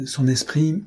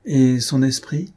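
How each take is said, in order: First: Higher, hesitant echoed question; embarrassed stammer. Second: Drawn-out, mildly exclaimed question. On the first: Embarrassed countess put on the spot, faltering. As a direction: echo it back embarrassed, pitched up. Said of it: "balbutia la comtesse embarrassée". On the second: Monsieur de Bièvre asking about her wit, exclaimed. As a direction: cry out the question, stretching it slowly. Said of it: "s'écria monsieur de Bièvre". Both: A narrator's reading.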